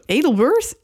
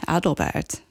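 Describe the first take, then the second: First: It is said the American way, starting with 'Edel'. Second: It is said with a German pronunciation.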